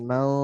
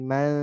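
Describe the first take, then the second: First: The vowel is said thick and rounded. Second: The vowel is said thin and open. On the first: The speaker calls it wrong. "jangan mau" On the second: The speaker calls it right. "Tipis kan?"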